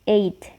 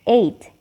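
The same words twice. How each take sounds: The two takes are said the same way.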